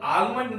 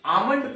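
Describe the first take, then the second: First: आलमंड with the L sounded, as the mistake; आलमंड said as a wrong example, L spoken. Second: आमंड with no L sound; आमंड said the right way, L dropped; silent L. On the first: Teacher shows students the wrong way: L sounded in आलमंड. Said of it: "आमंड पढ़ेंगे". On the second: Teacher shows students the right way: आमंड, silent L. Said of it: "इसको हम लोग आलमंड नहीं पढ़ेंगे". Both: Shown as a demonstration.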